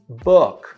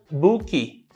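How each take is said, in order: First: The word ends cleanly on the consonant. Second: An extra vowel sound follows the final consonant. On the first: The speaker calls it right. "a gente coloca dois sons de I" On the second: The speaker calls it wrong. "book fica book"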